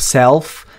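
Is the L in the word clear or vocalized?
clear. It has an E vowel and a clear L.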